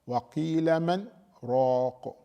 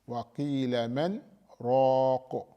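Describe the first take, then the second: The two takes are said the same way.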